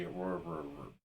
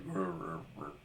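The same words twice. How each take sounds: First: Soft fading troll growl; internet troll growl. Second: Quiet deep troll rumble; troll growl. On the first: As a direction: growl it softer, dying away. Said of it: "my internet troll voice would be". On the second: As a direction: grumble low like a troll. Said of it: "an actual troll would be like". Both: Retold or imitated.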